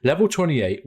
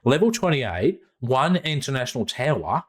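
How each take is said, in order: First: Said in the usual way. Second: A hint of an Australian accent on the address; lightly Aussie, reading an address out. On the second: Podcaster reading the sponsor's address, in light Australian accent. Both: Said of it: "I'm gonna do this in Australian accent".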